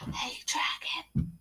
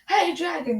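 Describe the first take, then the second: First: It is whispered very softly. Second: It is shouted very loudly.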